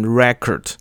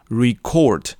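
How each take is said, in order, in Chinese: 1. 重音在第一个音节。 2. 重音在第二个音节。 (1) "这个字的名词念成record" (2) "那个时候是念成record，而不是record"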